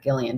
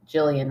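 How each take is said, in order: First: "Gillian" begun with a hard G; hard G pronunciation. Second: "Jillian" begun with a soft J sound; soft G pronunciation. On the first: Podcaster showing the wrong name, hard G pronunciation. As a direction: say "Gillian" with G as in give. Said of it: "and not Gillian". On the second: Podcaster checking a listener's name, soft G pronunciation. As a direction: say "Jillian" with J as in jam. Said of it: "I'm saying her name Jillian right". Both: Shown as a demonstration.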